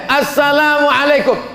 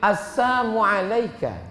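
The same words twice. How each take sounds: First: The greeting is said with the L sound. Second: The greeting is said without the L sound. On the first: It wishes peace. "kalau yang mengucapkan salam itu boleh" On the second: It wishes death. "Dihilangkannya lamnya"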